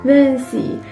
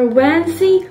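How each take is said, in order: First: The name is said without the 'wo' sound. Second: The name is said with the 'wo' sound. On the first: The speaker calls it wrong. "You are not" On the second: The speaker calls it right. "You are"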